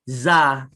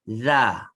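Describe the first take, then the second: First: The tongue stays behind the teeth, giving a z sound. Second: The tongue pokes out, giving a voiced th sound. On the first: It becomes the letter zai, changing the meaning. The speaker calls it wrong. "ramai yang bacanya tidak mengeluarkan lidah" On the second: It is the letter dhal. The speaker calls it right. "Nampak tak lidah saya dikeluarkan sedikit?"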